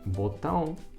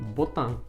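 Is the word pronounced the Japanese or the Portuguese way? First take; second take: Portuguese; Japanese. First: It is said with a Portuguese-style pronunciation. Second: It is said with a Japanese-style pronunciation.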